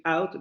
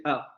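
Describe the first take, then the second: First: Said in the usual way. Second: "out" ending in a glottal stop, no t. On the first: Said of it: "en lugar de decir out". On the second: Shown as a demonstration. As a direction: close "out" in the throat, drop the t. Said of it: "van a decir out". ("out" con cierre glotal al final, sin t)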